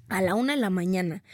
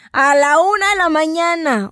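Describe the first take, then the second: First: Said in the usual way. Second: "a la una de la mañana" said louder and higher, stretched; exasperated at how late it got; emphatic repeat. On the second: Retold or imitated. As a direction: hammer the late hour home.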